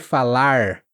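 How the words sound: The final R is a curled sound. "o mais caipira das pessoas do interior"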